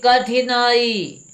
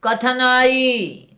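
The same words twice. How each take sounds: First: कठिनाई as "ka-thi-naa-ee", very slow, high; drawn-out कठिनाई, short "i" after th; corrected pronunciation. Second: कठिनाई as "ka-tha-naa-ee", very slow, high; drawn-out, loud "kathanaai" for कठिनाई; mispronounced कठिनाई. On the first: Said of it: "ये सही है". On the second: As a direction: say कठिनाई with "tha" in place of "thi". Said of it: "गलत लग रहा होगा". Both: Shown as a demonstration.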